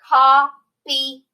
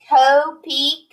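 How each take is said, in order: First: The first vowel is said short. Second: The first vowel is said long.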